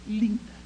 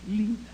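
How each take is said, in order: Both takes have the same delivery.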